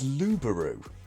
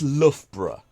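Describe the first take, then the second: First: It is a German speaker's attempt at the name. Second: It is the pronunciation used by local residents. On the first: A foreign visitor guessed at the name. The speaker calls it wrong. "I heard a German take a stab at pronouncing this once" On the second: This is how people who live there say it. The speaker calls it right. "to the locals"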